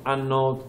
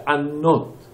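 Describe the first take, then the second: First: انات with a soft, light single nun; انات said softly, nun not stressed. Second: انات with the nun doubled and pressed hard; انات with dagesh, strong geminated n. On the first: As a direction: say انات gently without doubling the n. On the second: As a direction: lean on the nun in انات, stressed. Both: Shown as a demonstration.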